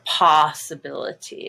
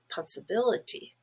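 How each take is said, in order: First: The stress is on the first syllable. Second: The stress is on the third syllable. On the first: The speaker calls it wrong. "it's no longer possibility" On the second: The speaker calls it right. "it's possibility"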